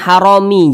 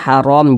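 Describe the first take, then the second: First: The word ends with a vowel after m. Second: The word ends on a silent m. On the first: The speaker calls it wrong. "jangan haromi" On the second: The speaker calls it right. "berhenti tepat di huruf mim, kita baca haram"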